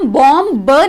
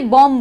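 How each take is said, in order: First: A final b sound is pronounced. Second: The word ends on m, b silent. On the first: The speaker calls it wrong. "हम बॉम ब नहीं बोलेंगे क्योंकि वो pronounce गलत होता है" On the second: The speaker calls it right. "इसलिए बॉम बोलेंगे"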